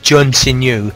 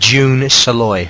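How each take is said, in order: First: The name is said without an L sound. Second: The name is said with an L sound. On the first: The speaker calls it wrong. "I thought it was" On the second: The speaker calls it right. "but it's pronounced"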